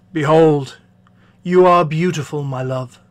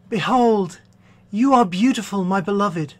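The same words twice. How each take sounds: First: Man to his bride. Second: Slightly raised, lighter lover's reply; bride to her man. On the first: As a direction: declare it as the admiring bridegroom. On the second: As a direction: answer as the admiring bride. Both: Acted. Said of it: "a dialogue between a man and his bride".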